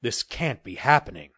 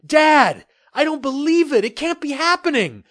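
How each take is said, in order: First: A touch of an exclaim, barely raised; mild understated exclamation. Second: High and loud, can't believe his eyes; stunned disbelief. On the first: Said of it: "he exclaimed". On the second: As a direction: blurt it out high and loud in shock. Son stunned by the ship. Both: Acted.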